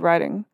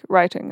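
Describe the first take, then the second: First: The T is softened into a quick flap. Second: The T is fully and crisply pronounced. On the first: It sounds less British. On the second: It sounds more British.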